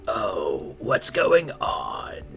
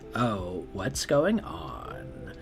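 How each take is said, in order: First: It is said loudly, with raised volume. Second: It is said quietly, in a Valley Girl voice.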